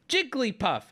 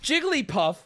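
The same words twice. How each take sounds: First: Jigglypuff said as Jig-lee-puff; three syllables. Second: Jigglypuff said as Jig-guh-lee-puff; four syllables. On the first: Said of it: "She says her name with three syllables". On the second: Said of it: "can be said with four syllables". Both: Shown as a demonstration.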